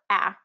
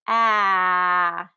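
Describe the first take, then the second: First: The vowel is held only briefly. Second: The vowel is held for a long time. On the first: "So I'm just doing it short"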